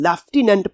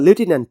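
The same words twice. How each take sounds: First: It is said in a British accent. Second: It is said in an American accent. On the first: "अगर इस word को हम British accent में पढ़ेंगे" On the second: "अगर हम इसको अमेरिकन एक्सेंट पढ़ेंगे"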